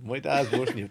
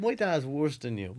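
First: Unvoiced whisper of the repeated line; whispered aside. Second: Said in the usual way. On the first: Real, not acted. Friend whispering a repeated aside to the group.

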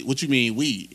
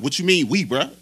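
First: Said in the usual way. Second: Mildly confrontational mock of the bellman; imitated aggressive challenge. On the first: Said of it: "And then he started getting aggressive". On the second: Bellman challenges delivery driver over "we", mildly aggressive imitation. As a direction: push the question harder, challenging him. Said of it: "he started getting aggressive".

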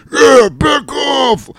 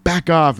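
First: Slow, very high, loud mock bellow; mocking dim-witted vampire. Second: Said in the usual way. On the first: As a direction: stretch it into an exaggerated goofy wail. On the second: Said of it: "So he's like".

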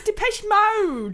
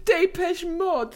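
First: "[name]" said the ordinary English way; plain English [name]. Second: "[name]" said the French way, slow and posh; dad's French [name]. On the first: Shown as a demonstration. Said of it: "Dad, it's [name]". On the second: Retold or imitated. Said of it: "as my dad would say".

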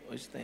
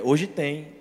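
First: Dropped to a near hush; suggestive hush. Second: Said in the usual way. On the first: Shown as a demonstration. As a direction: whisper it as a sly hint. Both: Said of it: "A mensagem mais romântica hoje é".

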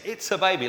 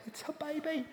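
First: Put-on gushing over a baby. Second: Put-on very high, soft, airy cooing of It's a baby. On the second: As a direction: coo It's a baby gently, as if to the infant itself. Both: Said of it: "you find yourself saying the dumbest things".

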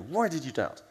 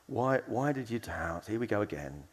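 First: Frustrated demand for an explanation; scolding question with an emphatic swoop; angry tone. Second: Slightly frustrated, tired of it all; long-suffering, resigned. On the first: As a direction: demonstrate an exasperated telling-off. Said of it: "angry tone". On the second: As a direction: ask it as if let down yet one more time. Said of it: "kind of long-suffering". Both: Shown as a demonstration.

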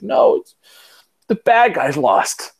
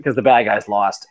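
First: Son's voice. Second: Said in the usual way. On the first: Retold or imitated. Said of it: "He's like". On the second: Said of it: "And he was crying 'cause the".

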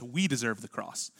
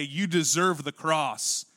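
First: Soft, lower "We deserve the cross"; quieter, blunted "We", falling at the end; softened collective. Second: Slow, drawn-out YOU deserve the cross; slow, weighty "You deserve the cross"; pointed accusation. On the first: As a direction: say "We" low and let it drop away. Contrasts 'we' with pointed 'you'. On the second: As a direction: press "You" home, word by word. Contrasts 'you' with collective 'we'. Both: Acted.

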